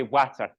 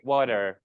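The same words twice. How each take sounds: First: Rhotic Scottish "water", strong final R; Scottish accent. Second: Flat American "water"; American accent. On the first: Teacher showing class how Scots say it, Scottish accent. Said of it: "We would say water". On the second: Teacher contrasting American speech with Scots, American accent. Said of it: "a flat American accent". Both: Shown as a demonstration.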